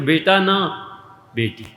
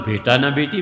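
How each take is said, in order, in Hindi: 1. दूसरे शब्द के ठीक बाद एक रुकाव है। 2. इसे बराबर लय में बोला जाता है, बीच में कोई रुकाव नहीं। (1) "और बेटी हो जाती है तो" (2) "और नहीं होता तो"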